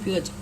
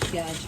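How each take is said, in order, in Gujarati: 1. પહેલો સ્વર ગોળ 'o' અવાજ છે. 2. પહેલો સ્વર ખુલ્લો 'aa' અવાજ છે.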